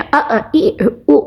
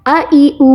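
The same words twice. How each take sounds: First: "अ, ई, उ" chopped short with a jolt; jerked vowels. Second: "अ ई ऊ" run together smoothly; quick, no jerk. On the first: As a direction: show the wrong way, cutting "अ", "ई", "उ" off abruptly. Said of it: "ऐसे नहीं पढ़ा". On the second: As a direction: read "अ ई ऊ" promptly, no catch after each vowel. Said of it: "हमने जल्दी तो पढ़ा". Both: Shown as a demonstration.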